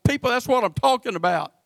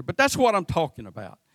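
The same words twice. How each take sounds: First: Raised, insistent preaching on "that's what I'm talking about"; emphatic point. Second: Said in the usual way. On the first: Real, not acted. Preacher driving point home.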